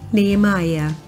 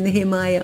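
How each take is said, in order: First: No H sound is pronounced mid-word. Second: An H sound is pronounced mid-word. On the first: The speaker calls it right. "Esse H não é pronunciado, então seria Nehemiah" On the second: The speaker calls it wrong. "Em inglês nós normalmente diríamos ne-re, né? Seria Nehemiah, mas não é"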